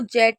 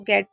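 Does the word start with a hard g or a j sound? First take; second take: j sound; hard g. First: The word starts with a j sound. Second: The word starts with a hard g sound. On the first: The speaker calls it wrong. "इसको जेट नहीं पढ़ेंगे" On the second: The speaker calls it right. "इसको गेट पढ़ेंगे"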